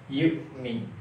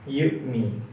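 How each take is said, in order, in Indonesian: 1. Konsonan di tengah itu hamzah pendek. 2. Konsonan di tengah itu hamzah pendek.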